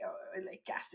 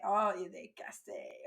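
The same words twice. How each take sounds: First: "Oh, il est cassé" breathed out in a whisper; resigned whispered echo; whispered repeat. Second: A teacher's half-sighed "Oh, il est cassé", lightly voiced; mild mock disappointment; mock dismay. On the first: Retold or imitated. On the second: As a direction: play your own fed-up classroom sigh. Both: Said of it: "I say".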